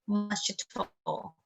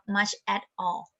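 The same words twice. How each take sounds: First: The words run together with linked sounds. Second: The words are said separately without linking. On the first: "He tends to link all the words together" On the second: "instead of"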